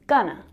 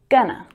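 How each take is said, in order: First: The words blend into one reduced form. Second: The words blend into one reduced form.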